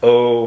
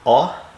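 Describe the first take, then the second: First: The vowel sounds like the letter's name. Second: The vowel is the short sound, like aw. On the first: "O for long" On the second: "aw for short"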